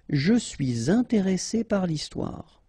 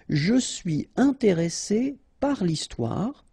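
First: A z sound joins suis to intéressé. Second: No linking sound joins suis and intéressé. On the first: "you can read it with the liaison" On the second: "It's possible to read this sentence like"

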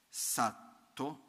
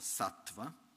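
First: The word ends in a plain 'o' sound. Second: The word ends in a 'va' sound. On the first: "Satto o sattva" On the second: "per essere più preciso nella pronuncia"

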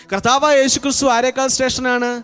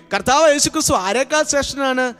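No difference in how they are said.

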